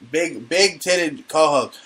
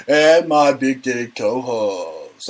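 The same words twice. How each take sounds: First: Slow, drawn-out repeat; slow relish. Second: Very slow, drawn-out announcer intro; hammed-up stretched announcer call; mock announcer. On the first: Pretend. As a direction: savor each word, stretching it out. Repeats her nickname, relishing it. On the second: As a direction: introduce her like a strip club host. Announces her like a club host.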